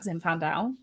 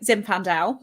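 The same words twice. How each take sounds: First: The word is said in a funny put-on voice. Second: The word is said in a normal voice.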